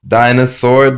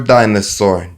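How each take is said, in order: First: Called-out keyword. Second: Said in the usual way. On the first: Shown as a demonstration. Teacher showing the phonics card, Dinosaur called out loud. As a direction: announce the card word Dinosaur loudly. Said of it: "phonics card keyword drill". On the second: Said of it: "repeat of card keyword".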